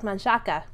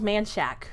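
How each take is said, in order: First: The final vowel sound is pronounced. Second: The final vowel sound is left silent. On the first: This follows the spelling. "it's spelled like Manchaca" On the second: This is how locals say it. "They make it a silent A at the end"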